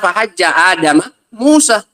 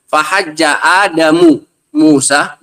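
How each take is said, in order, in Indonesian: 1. Nama Adam berakhir dengan bunyi ma. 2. Nama Adam berakhir dengan bunyi mu. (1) "Musa mengalahkan siapa? Adam" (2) "Adam yang mengalahkan siapa? Musa"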